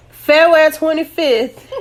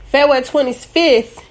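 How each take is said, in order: First: "February twenty-fifth" slow, pressed, higher, with a laugh; correcting herself with a laughing emphasis; date restated slow and emphatic. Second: Said in the usual way. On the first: Shown as a demonstration. Correcting the date for listeners, slow laughing emphasis. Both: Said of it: "I had the wrong date in my head".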